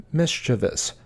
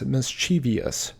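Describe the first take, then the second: First: Mischievous said MIS-chi-vus, three syllables; correct pronunciation. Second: Mischievous said mis-CHEE-vee-us; common mispronunciation. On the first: Teacher showing viewers the right way. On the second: Teacher showing viewers the wrong way. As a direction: say mischievous with an extra -ee-. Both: Shown as a demonstration. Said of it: "often mispronounced as mischievous".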